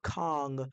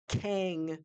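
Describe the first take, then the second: First: The vowel sounds like the 'o' in 'long'. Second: The vowel sounds like the 'a' in 'cat'. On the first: The speaker calls it wrong. "it's what's mostly been said around everywhere" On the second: The speaker calls it right. "is the right pronunciation"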